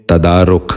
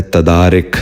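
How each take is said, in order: First: تدارک ending in -ruk, tadaaruk; the right way: تدارک as ta-daa-ruk; correct pronunciation. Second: تدارک ending in -rik, tadaarik; the wrong way: تدارک as ta-daa-rik; wrong pronunciation. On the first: Teacher gives children the correct تدارک, tadaaruk. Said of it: "اس لفظ کا درست تلفظ ہے". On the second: Teacher demonstrates the common mistake, تدارک as tadaarik. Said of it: "یہ غلط تلفظ ہے". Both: Shown as a demonstration.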